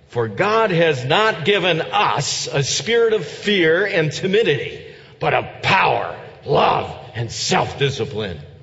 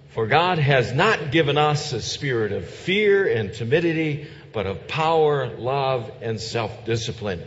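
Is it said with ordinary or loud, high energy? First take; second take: loud; ordinary. First: It is said loudly with high energy. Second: It is said with ordinary energy and loudness.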